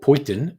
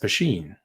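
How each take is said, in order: First: The middle consonant is a 't' sound. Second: The middle consonant is an 'sh' sound. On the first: The speaker calls it wrong. "or Poitin" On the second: The speaker calls it right. "it's pronounced Pasheen"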